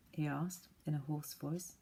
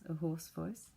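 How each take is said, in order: First: Said in the usual way. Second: Rasped, hoarse little voice; rough up the throat on it. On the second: Shown as a demonstration. Narrator demonstrating the barn owl's hoarse voice. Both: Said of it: "Not an owl voice".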